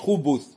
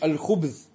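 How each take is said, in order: First: A vowel is heard between b and the last consonant. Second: No vowel is heard between b and the last consonant. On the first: The speaker calls it wrong. "не говоришь хубуз" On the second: The speaker calls it right. "биссукун, ... говоришь аль-хубз"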